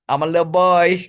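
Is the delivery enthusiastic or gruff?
enthusiastic. It is said in a bright, enthusiastic voice. "say it more enthusiastically?"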